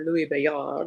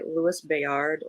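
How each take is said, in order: First: The name is pronounced the French way. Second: The name is pronounced the English way.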